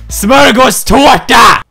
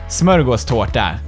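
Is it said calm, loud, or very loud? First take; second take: loud; calm. First: It is said loudly and aggressively. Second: It is said at a calm, normal volume.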